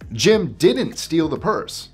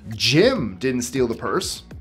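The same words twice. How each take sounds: First: The stress is on "didn't". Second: The stress is on "Jim".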